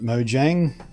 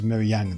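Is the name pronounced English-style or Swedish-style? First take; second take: English-style; Swedish-style. First: The name is pronounced in an English style. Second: The name is pronounced in a Swedish style. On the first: This is the common Western pronunciation. "if you're from the West and you feel like calling it Mojang" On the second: This is the official native pronunciation. "The official native pronunciation in the land whence it came is Mojang"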